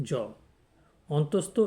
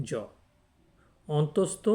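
No difference in how they are said.

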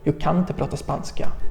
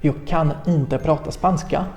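First: It is said quickly, with the words run together. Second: It is said slowly, with each word separate. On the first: "ale szybciej robi się nam z tego" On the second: "Powoli powiemy też na przykład"

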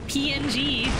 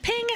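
First: It is said as separate letters. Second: It is said as one word. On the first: "I've always just been spelling it out" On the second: "PNG's official pronunciation. Is it Ping?"

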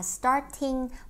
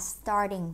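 First: The middle consonant is a crisp t sound. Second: The middle consonant is a soft d sound.

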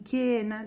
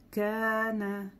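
First: The first vowel sounds like 'e'. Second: The first vowel sounds like 'a'. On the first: The speaker calls it wrong. "не кена, да, многие кена говорят, как бы очень смягчают" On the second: The speaker calls it right. "чтобы это было а, а не э"

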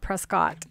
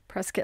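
First: The ending does not rhyme with biscuit. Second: The ending rhymes with biscuit. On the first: The speaker calls it wrong. "not Prescott" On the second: The speaker calls it right. "Prescott like biscuit"

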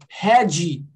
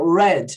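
First: An extra vowel sound follows the final D. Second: The word ends cleanly on the D sound. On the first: "a pessoa com sotaque brasileiro ... Vai falar o quê?" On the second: "fala para ela falar red"

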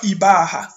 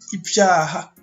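First: The b is followed directly by the vowel. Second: The b is followed by a y-glide sound. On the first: The speaker calls it wrong. "On dit pas Ibaha" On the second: The speaker calls it right. "Tu vois, Ibyaha"

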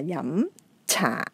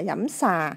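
First: The second word begins with a ch sound. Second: The second word begins with an s sound. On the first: The speaker calls it right. "mà là dẫm trà" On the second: The speaker calls it wrong. "chứ không phải là dẫm xà"

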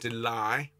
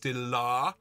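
First: The second vowel is an 'eye' diphthong. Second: The second vowel is an open 'ah' sound. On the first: The speaker calls it wrong. "rather than de-lie" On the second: The speaker calls it right. "it's a tall mouth. It's de-la rather than de-lie"

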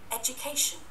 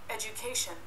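No difference in how they are said.

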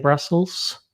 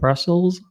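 First: The word ends with an s sound. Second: The word ends with a z sound. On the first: The speaker calls it wrong. "a nie Brussels" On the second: The speaker calls it right. "Z na końcu wymowie"

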